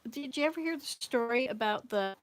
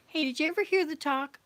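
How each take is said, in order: First: Said in the usual way. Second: Excited call out. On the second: Real, not acted. Suddenly starts a new story.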